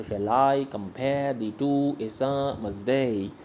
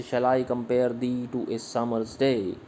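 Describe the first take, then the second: First: Slow, with "I", "pare" and "day" stressed; iambic reading, again slow. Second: Slow, with "compare", "summer's" and "day" stressed; iambic reading. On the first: Teacher repeats the sonnet line in slow meter. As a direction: lean into each beat. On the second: Teacher reads a Shakespeare sonnet line in meter. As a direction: let the meter lead, slowly. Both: Shown as a demonstration. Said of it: "इसी तरह से".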